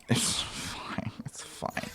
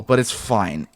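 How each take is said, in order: First: Hushed, voiceless it's fine; whispered to himself. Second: Said in the usual way. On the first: Real, not acted. Player whispering to himself after the game broke. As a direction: whisper it to calm yourself down. Muttered self-reassurance after glitch.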